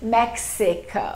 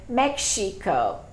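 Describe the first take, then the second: First: The middle consonant is said as 'ks'. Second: The middle consonant is said as 'sh'. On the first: This is the standard English pronunciation. "instead of Mexico" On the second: This is how a Japanese speaker says it. "Japanese people frequently say Mexico"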